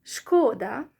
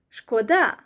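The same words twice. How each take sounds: First: Шкода with ШКО leaned on, loud; Шкода as ШКО-да, rising at the end; stress on first syllable. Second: Шкода with ДА punched loud; шкода as шко-ДА, end stressed; stress on second syllable. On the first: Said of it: "when you put stress on the first syllable". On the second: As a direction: lean hard on the final syllable of шкода. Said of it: "When you stress the second syllable". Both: Shown as a demonstration.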